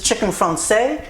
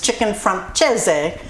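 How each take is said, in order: First: The name is pronounced the French way. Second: The name is pronounced the Italian way. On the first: "French is" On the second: "Italian is"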